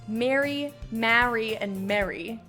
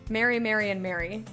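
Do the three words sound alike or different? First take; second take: different; alike. First: Each of the three words has a distinct vowel. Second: All three words are pronounced identically. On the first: "All three are different" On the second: "all three are the same"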